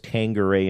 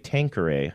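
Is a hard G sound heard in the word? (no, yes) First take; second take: yes; no. First: A hard G sound is heard in the middle. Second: No G sound is heard in the middle. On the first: The speaker calls it wrong. "I was always saying it with a G" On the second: The speaker calls it right. "you would say Tanqueray"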